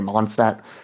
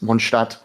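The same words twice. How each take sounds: First: The word is said with an English-style pronunciation. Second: The word is said with a German-style pronunciation. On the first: This is how the game pronounces it. The speaker calls it wrong. "Like they say Mondstadt" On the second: This is how it is really pronounced. The speaker calls it right. "it's Mondstadt"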